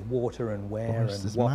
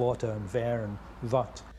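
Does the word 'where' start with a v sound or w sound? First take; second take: w sound; v sound. First: The word where starts with a w sound. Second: The word where starts with a v sound. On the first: This is how the words were said before the illness. "They might not say water and where and what anymore" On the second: This is how the words are said after the illness. "They say water and ver and what"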